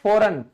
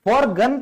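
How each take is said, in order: First: The g is silent; no g sound. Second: A g sound is pronounced before the n. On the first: The speaker calls it right. "फॉरेन ही बोलते हो ना" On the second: The speaker calls it wrong. "फॉरगन तो नहीं कहता ना कोई"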